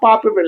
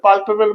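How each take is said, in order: First: The L sound in the first syllable is dropped. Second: The L sound in the first syllable is pronounced.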